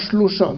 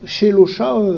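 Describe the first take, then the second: First: The sh runs straight into the l. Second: A short vowel comes between sh and l. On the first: This is how it is commonly heard in modern speech. "souvent, moi, j'entends shlosha" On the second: This is the older, biblical pronunciation. "peut-être en hébreu biblique"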